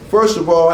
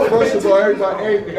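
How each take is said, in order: First: Said in the usual way. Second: Laughing through the words. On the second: Real, not acted. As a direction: restart while still cracking up. Laughs through restarting his address.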